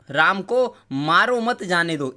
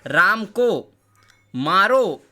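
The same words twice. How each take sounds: First: "Ram को मारो मत जाने दो" slowly, with no long break after "मारो"; example read as one sentence. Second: "Ram को", a beat, then "मारो" loud and cut off by a pause; pause after मारो. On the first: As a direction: keep "मारो मत" together, then "जाने दो". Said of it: "एक मैं आपको दे रहा हूँ कि". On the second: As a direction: punch "मारो" on its own, then stop as at a comma. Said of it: "उसी में एक विराम लगा देता हूँ". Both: Shown as a demonstration.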